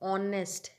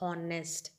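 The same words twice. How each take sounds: First: The word starts with a vowel sound. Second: The word starts with an h sound. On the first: The speaker calls it right. "This is honest" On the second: The speaker calls it wrong. "not honest"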